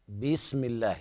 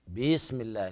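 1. الكسرة بعد الباء ممدودة. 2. الكسرة بعد الباء ممدودة.

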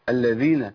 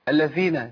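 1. صوت dh مجهور مع حبس النفس. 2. صوت dh مهموس مع هروب الهواء. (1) "لازم اقولها كده امنع النفس" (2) "زي اللي بيهمس في الذال"

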